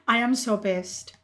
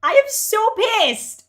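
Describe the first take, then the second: First: Low, subdued anger after a sigh; sigh, then let the anger sit low; pissed off. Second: Loud, high, drawn-out fury; pissed off. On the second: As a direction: stretch out the anger at full voice. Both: Real, not acted.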